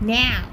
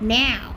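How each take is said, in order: First: The word is drawn out and stretched. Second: The same.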